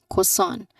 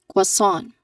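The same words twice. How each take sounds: No difference in how they are said.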